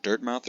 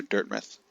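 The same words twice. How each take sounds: First: Said in the usual way. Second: Dirtmouth with a reduced second syllable, like "muth"; alternative pronunciation. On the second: Shown as a demonstration. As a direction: shorten the "mouth" in Dirtmouth to an unstressed "muth". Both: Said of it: "Is it Dirtmouth or Dirtmouth".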